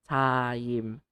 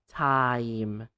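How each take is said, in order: Both takes have the same delivery.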